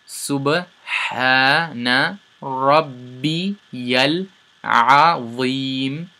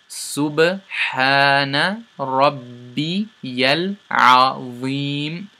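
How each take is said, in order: No difference in how they are said.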